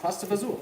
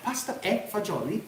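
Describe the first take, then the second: First: The name is shortened, ending in 'fazool'. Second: The name is said in full, ending in 'fagioli'. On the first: This is the form worn down over generations abroad. "a lot of Italian immigrants call this pasta fazool" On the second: This is the original form of the name. "pasta and beans"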